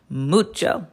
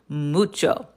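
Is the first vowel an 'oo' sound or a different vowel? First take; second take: oo; oo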